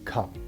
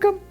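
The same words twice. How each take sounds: First: It is said in a lower, calmer voice. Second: It is said in a high, peppy voice. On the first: It suits an older puppy. "we try to lower our voice" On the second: It suits a very young puppy. "You have to be a high peppy voice"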